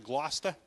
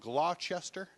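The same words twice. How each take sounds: First: The name is shortened, with middle syllables dropped. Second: Every written syllable of the name is sounded out. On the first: "We pronounce it Gloucester" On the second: "we have a city that's spelled Gloucester"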